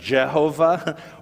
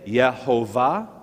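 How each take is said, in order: First: The name begins with a J sound. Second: The name begins with a Y sound. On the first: "if you spelled the Y like the Germans do with a J, you might then pronounce it Jehovah" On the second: "you might say Yehovah"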